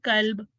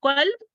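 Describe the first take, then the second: First: कल्ब said with an ordinary front k, meaning dog; कल्ब with a light k from the mouth, not the throat; kalb with plain k. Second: कल्ब starting from the back of the throat, as heart; qalb with qaf. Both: Shown as a demonstration. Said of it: "difference समझ आ रहा है ना".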